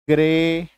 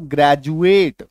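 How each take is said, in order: First: ग्रेडुएट with a hard retroflex d; wrong pronunciation. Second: ग्रेजुएट with a j sound for the d; correct pronunciation. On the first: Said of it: "गलत हो जाएगा". (ग्रेडुएट, कठोर ड के साथ गलत) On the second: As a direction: say ग्रेजुएट as gre-ju-et. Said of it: "ग्रेजुएट तो नहीं बोलेंगे". (ग्रेजुएट, डी को ज बोलें) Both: Shown as a demonstration.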